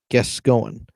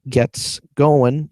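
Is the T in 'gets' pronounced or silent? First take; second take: silent; pronounced. First: The T sound in 'gets' is dropped. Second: The T sound in 'gets' is pronounced. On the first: "you can s- silent the T sound" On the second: "instead of saying gets going"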